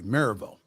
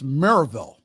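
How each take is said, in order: First: It is said quickly, compressing the syllables. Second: It is pronounced the way locals say it. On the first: "if you pronounce it quickly" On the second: "It's Maryville"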